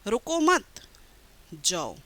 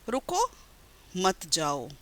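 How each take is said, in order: First: The pause comes after the word 'mat'. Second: The pause comes after the word 'ruko'. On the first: Do not stay, leave. "दूसरे वाक्य में मैं कह रही हूँ कि रुकना" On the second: Stay, do not leave. "पहले वाक्य में मैं कह रही हूँ कि रुको मत, यानी तुम रुक जाओ, मत जाओ"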